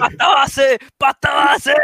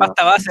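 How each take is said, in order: First: High, loud crazed yelling; crazed shout. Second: Louder mock shout; mock yelling. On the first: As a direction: scream it nonsensically to scare off a thief. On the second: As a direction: yell it like a crazy person. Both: Shown as a demonstration. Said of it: "empiezan a decir".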